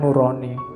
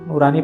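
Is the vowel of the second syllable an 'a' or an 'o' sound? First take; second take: o; a. First: The second syllable is said with an 'o' vowel. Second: The second syllable is said with an 'a' vowel. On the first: The speaker calls it wrong. "Kita kalau pakai O kan nurani" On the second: The speaker calls it right. "Nurani pakai A ya, bukan pakai O"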